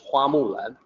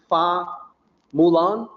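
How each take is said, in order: First: The surname starts with an h sound. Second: The surname starts with an f sound. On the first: This is the standard Mandarin form. "the actual Mandarin pronunciation is Hua Mulan" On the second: This is the regional dialect form used in North America. "her surname surname is written as Fa F A Fa Mulan"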